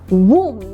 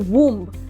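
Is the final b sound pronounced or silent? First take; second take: silent; pronounced. First: The final b sound is silent. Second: The final b sound is pronounced. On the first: The speaker calls it right. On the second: The speaker calls it wrong.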